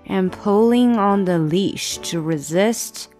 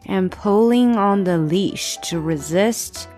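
Both takes have the same delivery.

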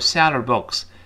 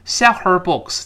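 First: The h sound is dropped, linking sell and her. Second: The h sound of her is clearly pronounced. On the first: The speaker calls it right. "那个h 就听不到了" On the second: The speaker calls it wrong. "还要把h 读出来就非常别扭"

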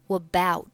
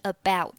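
First: The word starts with a linking w sound. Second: The word starts directly with a vowel sound. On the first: "现在呢听起来会有点像about" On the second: "本来是about"

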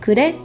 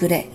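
First: The voice rises at the end, as a question. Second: The voice falls at the end, as a statement.

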